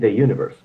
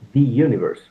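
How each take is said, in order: First: 'The' is said with a short 'uh' vowel. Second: 'The' is said with a long 'ee' vowel. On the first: The speaker calls it right. "I'm saying the universe" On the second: The speaker calls it wrong. "I'm not saying the universe"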